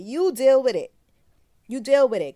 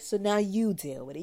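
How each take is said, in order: First: "You" hit loud and high, then "deal with it" thrown out hard; mock angry yell. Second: Said in the usual way. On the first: To the father who won't take the baby, a loud mock yell. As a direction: yell it back at him, louder each time.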